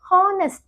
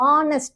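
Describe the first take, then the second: First: The word begins with an h sound. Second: The word begins with a vowel, no h. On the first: The speaker calls it wrong. "நிறைய பேரு ஹானஸ்ட் அப்படின்னு சொல்றாங்க. ஹா sound வந்து கிடையாது" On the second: The speaker calls it right. "எப்படி ஆர் சொல்றோமோ அந்த மாதிரி ஆ சவுண்டு தான் வரும்"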